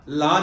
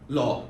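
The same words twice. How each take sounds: First: The vowel is said without rounding. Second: The vowel is said with rounded, U-shaped lips. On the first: The speaker calls it wrong. "लॉ नहीं है" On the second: The speaker calls it right. "U shape, जुबान को घुमाओ"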